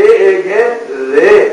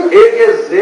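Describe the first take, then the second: First: رے drawn out with tongue tip at the teeth. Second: زے as a buzzing z, tongue behind the teeth; tongue held back. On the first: Teacher contrasting similar letters, رے slow, tongue on teeth. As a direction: slowly stretch رے, tongue touching the teeth. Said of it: "زبان کی نوک کو دانتوں سے لگائیں گے". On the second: Teacher contrasting similar letters, زے with tongue held back. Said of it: "زبان کو پیچھے رکھ کے". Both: Shown as a demonstration.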